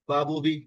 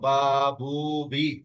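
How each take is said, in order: First: The vowels are short and clipped. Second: The vowels are stretched out long. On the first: "এটা হলো হরকত।" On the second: "এটা হয়ে গেল মাদ।"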